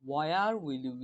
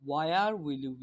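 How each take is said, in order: No difference in how they are said.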